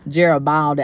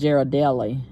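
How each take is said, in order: First: The word is said with a b sound. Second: The word is said without a b sound. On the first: "I've been calling it the wrong thing, pronouncing it the wrong way" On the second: "Ain't no B nowhere in the in the word"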